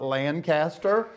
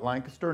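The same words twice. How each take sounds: First: The name is said the non-local way. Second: The name is said the local way. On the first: This is how outsiders say it. The speaker calls it wrong. "not Lancaster" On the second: This is how residents say it. The speaker calls it right. "We call it Lancaster"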